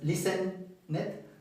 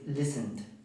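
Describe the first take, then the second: First: The ending is said as an extra syllable. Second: The ending adds no extra syllable. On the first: The speaker calls it wrong. "No es listen it" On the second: The speaker calls it right. "es listened"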